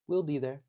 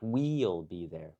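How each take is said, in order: First: We'll has a short i vowel, like will. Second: We'll has a long ee vowel, like wheel. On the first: The speaker calls it right. "Kind of sounds like will" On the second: The speaker calls it wrong. "Not we'll be there"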